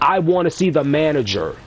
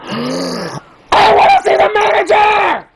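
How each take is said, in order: First: It is said in a calm, ordinary voice. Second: It is screamed loudly like a Karen.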